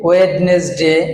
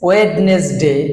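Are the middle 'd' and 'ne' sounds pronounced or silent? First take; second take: pronounced; pronounced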